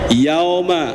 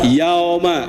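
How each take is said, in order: No difference in how they are said.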